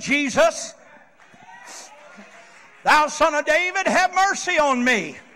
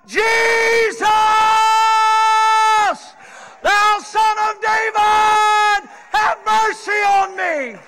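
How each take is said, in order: First: It is said at normal volume. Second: It is hollered at full volume.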